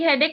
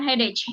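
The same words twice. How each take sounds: First: The ending is said with a k sound. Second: The ending is said with a ch sound. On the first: The speaker calls it right. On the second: The speaker calls it wrong.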